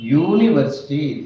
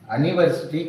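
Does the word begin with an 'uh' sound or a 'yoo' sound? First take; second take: yoo; uh. First: The word begins with a 'yoo' sound. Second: The word begins with an 'uh' sound. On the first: The speaker calls it right. "యూనివర్సిటీ అని చదవాలి" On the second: The speaker calls it wrong. "అనివర్సిటీ కాదు"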